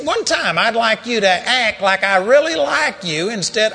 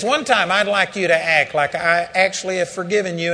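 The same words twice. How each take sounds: First: Loud, high pleading rebuke; exasperated owner shouting at a cowering dog; angry scolding. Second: Only slightly raised, calmer appeal; the Lord gently echoing the rebuke back to Andrew; God's gentle rebuke. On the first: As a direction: yell it at the dog in frustration. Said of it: "reading the riot act of this dog". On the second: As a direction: say it as a patient father. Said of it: "He says". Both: Retold or imitated.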